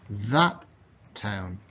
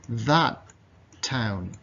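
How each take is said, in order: No difference in how they are said.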